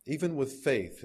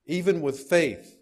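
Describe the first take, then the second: First: Said in the usual way. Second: Slow, higher and much louder, leaning on "Even"; "Even" punched loud and high, the phrase slowed down; forceful emphasis. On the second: Shown as a demonstration. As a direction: drive "Even with faith" home hard. First take of repeated line.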